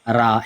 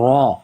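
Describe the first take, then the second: First: The r sound is plain and light. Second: The r sound is heavy with rounded lips. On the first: "ये मैं नॉर्मली पढ़ रहा हूँ" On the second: "मोटा करके पढ़ते हैं, इसकी आवाज थोड़ी हैवी बना के"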